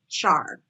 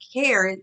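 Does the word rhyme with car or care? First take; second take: car; care. First: The word rhymes with car. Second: The word rhymes with care. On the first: "programmers pronounce it char" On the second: "you may hear it pronounced care"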